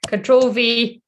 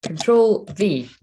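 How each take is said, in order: First: Louder, exasperated retry of Control V; frustrated. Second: Each key spelled out slowly and evenly; slow, careful. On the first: Streamer fails to paste on live stream, louder and frustrated. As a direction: snap the keys out in frustration. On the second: Streamer talks viewers through pasting, slow and careful. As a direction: say it slowly as you press the keys. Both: Real, not acted. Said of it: "No, guys, this is not working".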